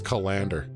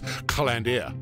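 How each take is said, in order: First: The name is said in a plain English way. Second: The name is said with a put-on French flair. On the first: "It's it's Calander" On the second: "if you want to be Frenchy and church it up"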